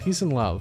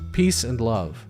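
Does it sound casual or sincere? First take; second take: casual; sincere. First: It is said in a casual, throwaway way. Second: It is said in a warm, sincere way. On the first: The speaker calls it wrong. "Why do they say it like that?" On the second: The speaker calls it right. "a little more sincere note"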